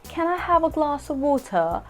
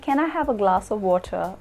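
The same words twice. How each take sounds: First: It is said in a British accent. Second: It is said in a neutral accent. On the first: "if I had to say a sentence in the British accent" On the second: "which is more neutral"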